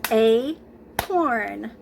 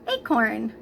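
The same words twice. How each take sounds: First: Acorn slowly split as A-CORN, each beat hit; clapped syllables. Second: Said in the usual way. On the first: Shown as a demonstration. Teacher clapping out Acorn for young students. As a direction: clap Acorn out in two slow beats. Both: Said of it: "so let's clap out the syllables in acorn".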